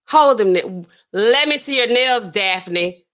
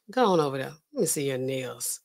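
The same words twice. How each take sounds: First: Louder mock-bossy order; loud demand. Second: Low, softly spoken command; quiet order. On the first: Man demanding to inspect Daphne's nails, loud demand. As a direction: demand it with a forceful burst. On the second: Acted. Man ordering Daphne to show her nails, quiet order. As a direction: give the order low and under the voice.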